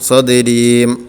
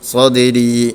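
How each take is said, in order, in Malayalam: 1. ചുണ്ടുകൾ അടയുന്നു, m ശബ്ദം ചേരുന്നു. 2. വാക്ക് ദീർഘമായ തുറന്ന സ്വരാക്ഷരത്തിൽ അവസാനിക്കുന്നു.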